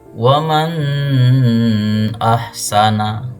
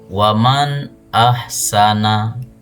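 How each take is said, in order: First: The n sound is blurred and nasalized. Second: The n sound is pronounced clearly and short. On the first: The speaker calls it wrong. "Tidak boleh dibaca" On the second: The speaker calls it right. "Yang benar ... Nunnya jelas dibaca"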